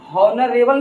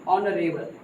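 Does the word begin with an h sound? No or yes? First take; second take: yes; no. First: The word starts with an h sound. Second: The word starts with a vowel, no h. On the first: The speaker calls it wrong. "हॉनरेबल नहीं पढ़ेंगे" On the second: The speaker calls it right. "ऑनरेबल क्योंकि एच यहाँ silent है"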